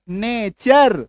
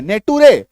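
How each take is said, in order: First: नेचर said "nay-cher" with a ch sound, falling; right pronunciation. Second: नेटुरे said letter by letter as "ne-tu-re", asked louder like a question; wrong reading. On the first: Teacher gives students the correct reading, नेचर as "nay-cher". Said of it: "क्या करते हैं उच्चारण हम लोग?". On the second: Teacher shows students the wrong literal reading, नेटुरे as "ne-tu-re". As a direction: read नेटुरे literally as spelled, "ne-tu-re". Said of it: "नहीं". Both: Shown as a demonstration.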